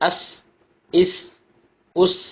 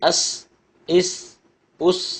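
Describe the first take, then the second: Both takes have the same delivery.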